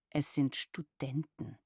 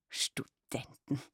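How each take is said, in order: First: Slow, lightly irritated insistence; a touch of exasperation, each word set down. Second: Slow, aghast whisper; mother whispering in shocked horror; horrified. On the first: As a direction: daughter correcting her mother, mildly annoyed. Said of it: "sagte ich gereizt". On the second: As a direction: breathe the word out as if it were a scandal. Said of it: "rief sie entsetzt aus". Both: Acted.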